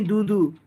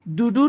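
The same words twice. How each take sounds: First: Said in the usual way. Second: दूधू pitched up, as the version to reject; rejected pronunciation. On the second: Shown as a demonstration. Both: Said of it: "दूधू नहीं".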